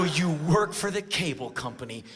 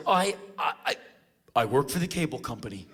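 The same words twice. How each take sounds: First: Mock-incredulous repeat of the claim; sceptical echo. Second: Halting, repeated false starts, then the claim; retold stammering excuse. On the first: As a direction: question the feeble lie. Acted sceptical echo of excuse. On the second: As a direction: fumble for a lie. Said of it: "he kinda ran out of bullshit".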